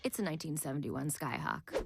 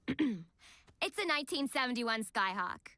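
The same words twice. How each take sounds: First: It is said in the speaker's normal accent. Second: It is said in a New York accent. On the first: The speaker calls it wrong. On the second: The speaker calls it right.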